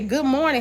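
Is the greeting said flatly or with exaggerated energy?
flatly. It is said plainly, without added emphasis. It is just a neutral greeting. "like I say"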